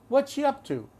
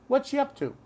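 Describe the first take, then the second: The two takes are said the same way.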